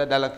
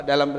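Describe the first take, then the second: Both takes have the same delivery.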